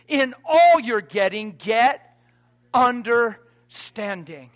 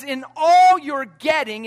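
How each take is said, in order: First: "all" lifted and rising, then a slow, drawn-out "understanding"; stress on ALL, drawn out. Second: "all" held long and slow, falling; stress on ALL. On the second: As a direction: lean on "all" in "In all you're getting". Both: Shown as a demonstration.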